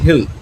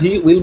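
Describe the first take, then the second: First: It is said as one short contracted syllable. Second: It is said as two separate full words. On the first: "এটার উচ্চারণ actually হেল" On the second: "কিন্তু তোরা হি উইল বলতে পারো"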